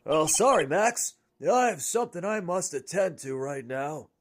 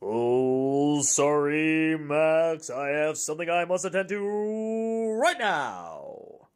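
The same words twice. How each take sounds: First: A hint of a ringmaster, little bravado; first weak go at a ringmaster; ringmaster voice, timid try. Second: Ringmaster voice with bravado. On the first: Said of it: "that's not enough for a ringmaster". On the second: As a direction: boom it out like a ringmaster. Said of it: "there you go... a great ringmaster voice". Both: Shown as a demonstration.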